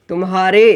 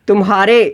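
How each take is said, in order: No difference in how they are said.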